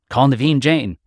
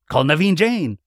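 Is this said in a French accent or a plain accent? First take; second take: plain; French. First: It is said in the speaker's plain accent. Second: It is said in an imitated French accent. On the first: The speaker calls it wrong. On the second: The speaker calls it right.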